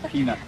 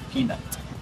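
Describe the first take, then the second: First: The final T sound is dropped. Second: The final T sound is clearly pronounced. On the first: The speaker calls it wrong. "不可以说" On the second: The speaker calls it right. "Make sure you pronounce that T at the end"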